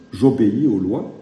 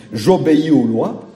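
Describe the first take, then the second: First: Said in the usual way. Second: "J'obéis aux lois" pushed out louder with a raised start; emphatic claim. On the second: Real, not acted. Preacher to his congregation, insisting he obeys the law, emphatic.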